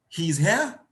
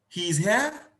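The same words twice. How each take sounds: Both takes have the same delivery.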